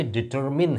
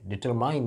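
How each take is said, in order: First: "डिटरमिन" with a short i, as in "min"; correct pronunciation. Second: "डिटरमाइन" with a long "ai" sound; the common mistaken form "डिटरमाइन"; wrong form with "ai" as in "mine"; wrong pronunciation. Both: Shown as a demonstration. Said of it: "डिटरमाइन नहीं है भाई।".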